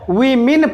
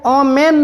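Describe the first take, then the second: First: The first vowel sounds like 'i' in 'sit'. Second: The first vowel sounds like 'o' in 'go'. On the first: The speaker calls it right. "वीमिन पढ़ना है" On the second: The speaker calls it wrong. "इसे ओमेन नहीं पढ़ना है"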